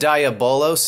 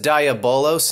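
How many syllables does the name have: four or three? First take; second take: four; four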